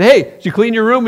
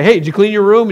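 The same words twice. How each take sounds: First: Cheerful mom. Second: Nagging parent. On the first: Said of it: "your mom came to you and said". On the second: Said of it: "your parents say". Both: Retold or imitated.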